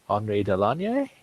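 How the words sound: The name is said with a French accent. "the French pronunciation, and probably the correct one"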